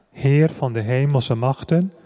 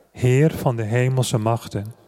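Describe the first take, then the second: Both takes have the same delivery.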